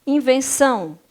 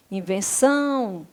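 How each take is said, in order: First: Said in the usual way. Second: "Invenção" with a long drawn-out final "ção"; stress on last syllable. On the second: Shown as a demonstration. Teacher showing that the last syllable is tonic, "Invenção" stressed and lengthened at the end. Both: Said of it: "a sílaba tônica é a última".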